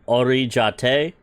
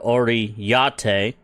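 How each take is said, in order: First: The middle consonant is a J sound. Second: The middle consonant is a Y sound. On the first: "It's either ja" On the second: "or yate. Give it that Y sound"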